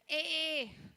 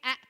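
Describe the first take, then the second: First: The vowel is said as a long sound. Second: The vowel is said as a short sound. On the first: The speaker calls it right. "this A has become long now" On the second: The speaker calls it wrong. "It's not saying A"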